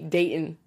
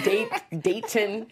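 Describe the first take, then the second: First: The t in the name is soft. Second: The t in the name is crisp. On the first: The speaker calls it right. "trying to be Dayton" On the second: The speaker calls it wrong. "you accentuate your T's"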